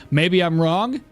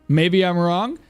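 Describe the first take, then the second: No difference in how they are said.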